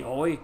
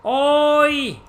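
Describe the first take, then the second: First: Said in the usual way. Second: Oi, high and loud, called out sharply; imitating oi. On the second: Streamer mimics how the Japanese say oi. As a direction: throw the oi up high like a call. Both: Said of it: "They all say".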